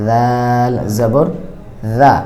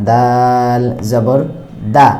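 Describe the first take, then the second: Both takes have the same delivery.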